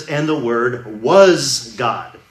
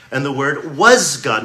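First: Slow, weighty "was" in And the Word "was" God; stress on was. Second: "was" slowed and weighted, the Word "was" God; stress on was. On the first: Preacher rereading the last clause, slow stress on "was". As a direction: drag out the line, landing on "was". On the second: Preacher quoting scripture to the congregation, "was" stressed slowly. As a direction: lean hard on "was", slow and deliberate. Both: Shown as a demonstration. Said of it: "Notice the emphasis on the word "was".

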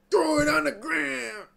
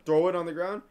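First: High, yelled like a song hook; mock belted yell. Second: Said in the usual way. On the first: Belts the line back loudly.

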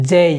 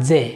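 First: যেই ending in an ee glide; correct diphthong. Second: যে with one plain e, no glide; wrong pure vowel. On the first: Teacher models J for learners, with the glide. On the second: Teacher shows what we won't say, pure vowel. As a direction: say যে without the closing ee sound. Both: Shown as a demonstration. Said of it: "আমরা বলবো না যে".

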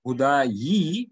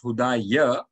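First: Hudayi with a long, stressed "yee" ending; original yi ending. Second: Hudaya ending in an open "ya"; changed ya ending. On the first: Teacher showing students the original form, hudayi ending in yee. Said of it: "It is actually hudayi". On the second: Teacher showing students the changed form, hudaya ending in ya. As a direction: slowly sound out hudaya, finishing on ya. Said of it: "hudayi becomes hudaya". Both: Shown as a demonstration.

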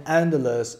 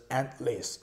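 First: Endless said as "EN-dless", d clear, ending "less"; first pronunciation. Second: Endless said as "EN-lis", d dropped, ending "lis"; second pronunciation. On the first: (endless 读作 en-dless，d 清楚，结尾读 less) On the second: (endless 读作 en-lis，省掉 d，结尾读 lis) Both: Shown as a demonstration. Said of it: "它有两个发音".

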